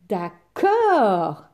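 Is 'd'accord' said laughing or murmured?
laughing. It is said while laughing. "répondit en riant le méchant méchant loup"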